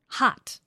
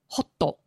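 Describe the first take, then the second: First: A short English vowel with no added final vowel. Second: Japanese loanword style, with an extra final vowel.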